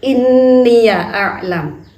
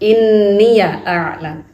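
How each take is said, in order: No difference in how they are said.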